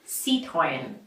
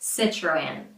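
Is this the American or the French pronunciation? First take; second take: French; American. First: It is said with French sounds. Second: It is said with American I and R sounds. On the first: "the original French pronunciation sounds something like this" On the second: "just with the American short I and R"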